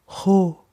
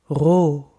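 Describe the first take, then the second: First: The R is a soft, airy hissing sound. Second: The R is a gargly sound in the throat. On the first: "the airy cat hissing one" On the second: "starting with a gargly air"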